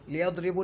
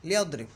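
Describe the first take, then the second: First: लियदरिबु with a final short "u"; wrong -u ending. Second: लियदरिब stopped on the final b, no vowel; correct jazm ending. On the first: Teacher showing what not to say, लियदरिबु ending in "u". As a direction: end लियदरिबु on a "u" vowel. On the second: Teacher giving the correct form, लियदरिब ending on vowelless b. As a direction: cut लियदरिब off on a closed "b". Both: Shown as a demonstration. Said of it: "नहीं बोलेंगे".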